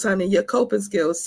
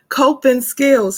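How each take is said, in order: First: Said in the usual way. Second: "Coping skills" drawn out slow and louder; stressed slowly. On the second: Shown as a demonstration. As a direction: lean hard on "Coping skills".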